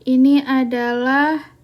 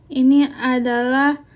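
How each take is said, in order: The two takes are said the same way.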